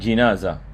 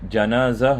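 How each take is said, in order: First: The first syllable has the vowel 'i'. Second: The first syllable has the vowel 'a'. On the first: "kita baca dengan dengan kasrah" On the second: "kita baca dengan fathah"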